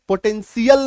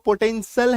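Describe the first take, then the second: First: The ending is two syllables, 'shee-ul'. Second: The ending is one short syllable, 'shul'. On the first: The speaker calls it wrong. "पोटेंशियल नहीं है" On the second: The speaker calls it right. "इसका सही उच्चारण जो पोटेंशियल है"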